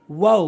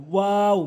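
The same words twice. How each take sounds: First: "ওয়াও" short and quick; wrong pronunciation. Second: "ওয়াও" long, from the hollow of the mouth; correct pronunciation. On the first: Teacher shows learners the mistake, short "ওয়াও". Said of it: "ভুল উচ্চারণ". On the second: Teacher models the Arabic letter, long "ওয়াও". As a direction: stretch "ওয়াও" into a held glide. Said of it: "সঠিক উচ্চারণ হচ্ছে". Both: Shown as a demonstration.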